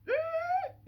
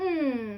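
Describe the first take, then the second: First: The hum is high in pitch. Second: The hum is low in pitch. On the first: "head voice" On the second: "chest voice"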